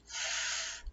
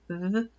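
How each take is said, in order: First: The th sound is voiceless, without throat vibration. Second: The th sound is voiced, with throat vibration. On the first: "the unvoiced is" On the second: "the voiced is"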